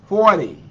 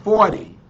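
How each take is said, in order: Both takes have the same delivery.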